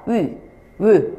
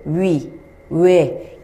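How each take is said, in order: First: 위, 외 as steady rounded ü and ö; monophthong pronunciation. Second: 위, 외 as gliding wi, we; diphthong pronunciation. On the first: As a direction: hold 위, 외 as single vowels without gliding. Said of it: "이중모음식으로 된 게 아니라". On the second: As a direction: say 위, 외 with the lips moving mid-vowel. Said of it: "입술 모양 바뀌는데요". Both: Shown as a demonstration.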